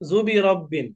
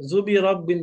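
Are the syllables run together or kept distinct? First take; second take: run together; run together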